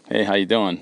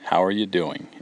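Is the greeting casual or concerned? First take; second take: casual; concerned. First: It sounds like a casual, passing greeting. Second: It sounds like a sincere, concerned question.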